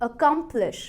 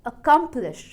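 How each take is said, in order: Both takes have the same delivery.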